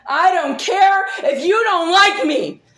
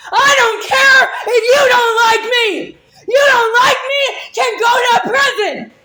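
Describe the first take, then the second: First: Loud shout with a laugh in it; angry laughing shout. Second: Much higher, louder, crying-laughing scream; sobbing laughing scream. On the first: Telling the accuser she doesn't care, laughing angrily. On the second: Screaming at the accuser through tears and laughter. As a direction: break into a tearful, laughing scream. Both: Real, not acted.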